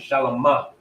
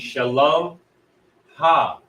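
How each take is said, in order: First: The ending blends into one word, shalama. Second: The ending is split off, shalom ha. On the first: It describes something, meaning peaceful. "that's how you would pronounce it if this was a servile tense" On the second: It marks possession. "if this is used as a possessive"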